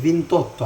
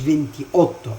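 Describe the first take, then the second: First: The final vowel of venti is dropped. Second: The final vowel of venti is kept. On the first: The speaker calls it right. "قلت فينتوتو على طول" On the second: The speaker calls it wrong. "فما قلتش فينتي اوتو"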